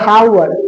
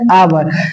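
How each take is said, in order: First: The word begins with an audible h sound. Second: The word begins directly with a vowel sound. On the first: The speaker calls it wrong. "नहीं नहीं नहीं" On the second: The speaker calls it right. "क्या पढ़ेंगे आवर"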